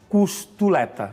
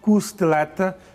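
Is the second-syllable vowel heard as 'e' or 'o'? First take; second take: o; e. First: The second syllable has an 'o' vowel. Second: The second syllable has an 'e' vowel. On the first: The speaker calls it wrong. "No português padrão não existe costoleta" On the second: The speaker calls it right. "mas sim costeleta"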